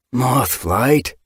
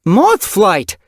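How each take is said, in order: First: Pitying call. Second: A loud high yowl of her name, falling. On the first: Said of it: "more pity than anger in his mew". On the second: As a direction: call her back sharply. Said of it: "her mother's yowl". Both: Acted.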